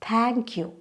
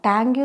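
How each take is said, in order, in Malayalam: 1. ആദ്യത്തെ വ്യഞ്ജനത്തിൽ ഒരു ചെറിയ ശ്വാസക്കാറ്റുണ്ട്. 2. ആദ്യത്തെ വ്യഞ്ജനം അല്പപ്രാണമായ ലളിതമായ t ആണ്. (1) "ത അല്ല ഥ ആണ്. അതിന് ഇത്തിരി കാറ്റൂടെ വരണം" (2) "താങ്ക് യു എന്ന് പറയരുത് കേട്ടോ"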